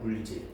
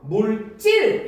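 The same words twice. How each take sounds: First: The second syllable starts with a plain consonant. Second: The second syllable starts with a tense consonant. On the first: It means the diving work of sea divers. "된소리 대기가 적용되지 않아" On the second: It means physical matter. "리을 받침이 즈즈 지읒을 만나서 물질 이렇게 된다는 거야"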